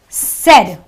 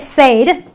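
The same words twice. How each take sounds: First: The vowel is a short 'eh' sound. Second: The vowel is a long 'ay' sound. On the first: The speaker calls it right. "You have another word" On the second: The speaker calls it wrong. "You don't say said. ... It's not an A sound"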